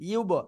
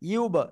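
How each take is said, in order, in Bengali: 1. স্বরধ্বনিটি একটি ওষ্ঠ্য 'oo'-সদৃশ ধ্বনি। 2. স্বরধ্বনিটি একটি ওষ্ঠ্য 'oo'-সদৃশ ধ্বনি।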